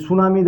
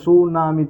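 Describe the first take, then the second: First: Said in the usual way. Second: সুনামি split into three beats, su-na-mi; broken into syllables. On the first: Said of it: "উচ্চারণ করে দেখে নেবো". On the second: Shown as a demonstration. Teacher showing how many parts the word has, সুনামি split as su, na, mi. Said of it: "উচ্চারণ করে দেখে নেবো যে কটাতে পার্টে ভাঙছে".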